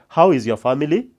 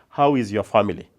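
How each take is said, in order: First: The voice rises at the end. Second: The voice falls at the end. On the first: The speaker calls it wrong. "you don't ask, ... That is wrong English" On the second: The speaker calls it right. "We ask them with a falling intonation. You ask"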